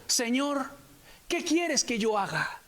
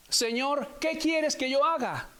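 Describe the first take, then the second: First: Slow, hushed fearful plea, lightly voiced; trembling and fearful. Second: Slow, rising repeat of "quieres", a mild beg; trembling plea. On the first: Saul, fallen on the road, asks the Lord slowly and fearfully. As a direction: ask it slowly, a touch of awe and fear. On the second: Saul repeats his question to the Lord, mildly pleading. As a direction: press the question again, more urgent. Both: A narrator's reading. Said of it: "temblando y temeroso".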